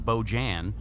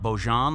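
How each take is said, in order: First: The name is pronounced the English way. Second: The name is pronounced the French way. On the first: The speaker calls it wrong. "I don't think it's Beaujan" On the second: The speaker calls it right. "I'm guessing it's Beaujean, like it's French"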